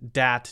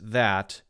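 First: It begins with a D sound. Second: It begins with a soft TH sound. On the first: "but sometimes dis, dat" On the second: "sometimes she does pronounce the, this, that"

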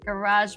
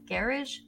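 First: It is said in an American accent. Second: It is said in a British accent.

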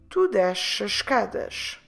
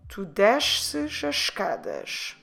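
First: A single sh sound is pronounced in the verb. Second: Two consonant sounds are pronounced in the verb.

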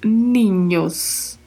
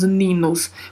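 First: The middle consonant is a palatal ny sound. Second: The middle consonant is a plain n sound. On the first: The speaker calls it right. "pronunciamos ninhos" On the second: The speaker calls it wrong. "não pronunciamos ninos"

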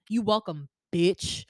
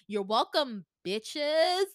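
First: It sounds hostile and confrontational. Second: It sounds playful and lighthearted.

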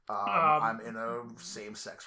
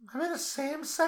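First: It is said in a deep, low put-on voice. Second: It is said in a higher, different put-on voice. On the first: "You can't do that bit using that voice" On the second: "That's worse"

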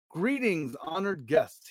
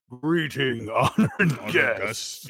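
First: It is said in the speaker's normal voice. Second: It is said in a put-on deep voice. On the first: The speaker calls it wrong. "I should have done a deep voice" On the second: The speaker calls it right. "he says in a deep voice"

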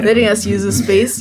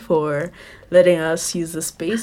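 First: It is said in a put-on radio voice. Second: It is said in her normal voice.

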